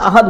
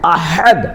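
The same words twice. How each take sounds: First: The h sound is light and soft. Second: The h sound is strong and forceful. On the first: The speaker calls it wrong. "यहां अहद अहद बोलते हैं" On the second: The speaker calls it right. "है को ताकत से निकालेंगे"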